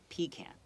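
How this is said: It is said with a British pronunciation. "But in Britain, they they pronounce it pecan"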